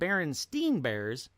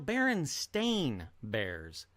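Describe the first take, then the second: First: The last syllable of the name sounds like 'steen'. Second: The last syllable of the name sounds like 'stain'. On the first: This is how the name is remembered. "instead of Berenstein Bears" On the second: This is how the name is written now. "it's now Berenstain Bears"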